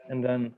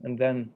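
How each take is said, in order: Both takes have the same delivery.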